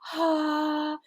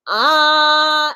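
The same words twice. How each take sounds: First: The vocal cords stay apart; the tone is breathy. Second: The vocal cords close; the tone is clear. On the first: The speaker calls it wrong. "when they're apart" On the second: The speaker calls it right. "when they're together"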